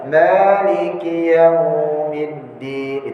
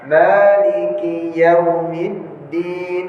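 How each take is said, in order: First: The vowel in yaum is drawn out long. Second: The vowel in yaum is kept short and soft. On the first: The speaker calls it wrong. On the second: The speaker calls it right.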